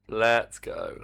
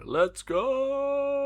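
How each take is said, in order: First: Said in the usual way. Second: High, drawn-out hype call; excited cheer. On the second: Real, not acted. Cheering the game loading up.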